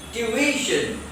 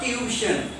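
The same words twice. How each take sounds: First: TUITION in three syllables, "tyu-I-shun"; correct tuition. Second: TUITION squashed to "tyu-shun"; wrong tuition. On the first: Teacher correcting the mistake, TUITION with stressed "i". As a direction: stretch the middle "i" of TUITION. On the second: Teacher showing the common mistake, TUITION squashed to two syllables. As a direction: drop the middle "i" of TUITION. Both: Shown as a demonstration. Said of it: "Not tuition".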